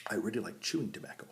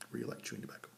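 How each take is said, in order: First: Said in the usual way. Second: Soft whispered echo. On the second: Shown as a demonstration. Confessing his love of chew to viewers in a whisper. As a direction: breathe it again like a guilty secret. Repeats the line, second time whispered.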